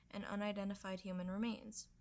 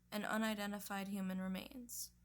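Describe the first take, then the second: No difference in how they are said.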